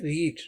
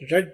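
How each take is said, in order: First: The vowel is long, like 'reed'. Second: The vowel is short, like 'red'. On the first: It is the base form of the verb. "अब यहाँ पर verb है रीड। रीड का मतलब पढ़ना।" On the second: The action happened in the past. "लेकिन बोलने में ये रेड बोला जाता है।"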